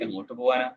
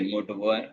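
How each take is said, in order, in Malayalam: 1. ആത്മാർത്ഥമായി ചോദിക്കുന്ന ഒരു ചോദ്യം പോലെ തോന്നുന്നു. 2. ആക്ഷേപത്തോടെയുള്ള, ചോദ്യമല്ലാത്ത ഒരു പ്രസ്താവന പോലെ തോന്നുന്നു. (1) "ചോദ്യാർത്ഥത്തിലോ എങ്ങോട്ടേക്കാണ് പോകേണ്ടത് എന്നുള്ള രീതിയിൽ" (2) "എങ്ങോട്ടും പോകണ്ട എന്നുള്ള അർത്ഥത്തിൽ"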